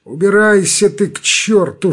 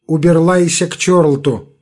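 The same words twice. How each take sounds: First: Said in the usual way. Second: Уберлайся with r turned into l; lisping burr on уберлайся. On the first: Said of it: "своим картавым голосом". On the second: A narrator's reading. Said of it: "отвечает своим картавым голосом".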